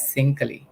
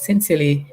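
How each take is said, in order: First: "sincally" said SIN-kuh-lee, the middle vowel dropped; wrong pronunciation. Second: "sincerely" said sin-SEER-lee with a clear middle vowel; correct pronunciation. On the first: Teacher showing the misreading "sincally". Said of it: "which is definitely wrong". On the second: Teacher showing the correct "sincerely". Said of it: "we don't read it as sincerely". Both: Shown as a demonstration.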